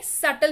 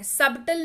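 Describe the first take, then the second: First: सटल said sut-tal with a silent b; correct pronunciation. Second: सबटल said sub-tal with the b sounded; wrong pronunciation. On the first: Teacher telling viewers how to read it, silent b. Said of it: "क्या पढ़ते हैं?". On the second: Teacher warning viewers of the mistake, b sounded. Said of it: "नहीं पढ़ते हैं इसको". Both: Shown as a demonstration.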